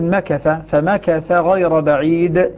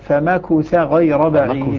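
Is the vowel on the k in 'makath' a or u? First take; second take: a; u. First: The k carries an open a vowel. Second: The k carries a rounded u vowel. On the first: "عاصم المرموز له بالنون من نوفلة يفتح ضمة الكاف" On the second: "يقرؤونها بضم الكاف"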